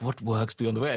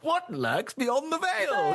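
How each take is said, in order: First: It is said as a plain, calm question. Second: It is said as a loud, dramatic exclamation.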